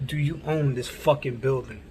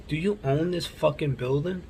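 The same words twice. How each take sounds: First: Imitating a demand, falling at the end; retold firm repeat. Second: Imitating a pointed question with a rising end; retold challenge. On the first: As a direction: repeat the challenge, landing on OWN. Repeats it after "Huh?. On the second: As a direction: confront them, voice lifting at the end. Retold confrontation, first asking.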